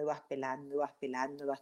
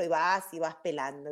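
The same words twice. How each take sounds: First: Trailing off much softer, over and over; fading repetition. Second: Said in the usual way. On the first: Shown as a demonstration. Peeling layers of an onion, the voice fading softer. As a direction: let the repeated words fade away to almost nothing.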